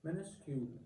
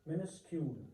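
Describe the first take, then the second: Both takes have the same delivery.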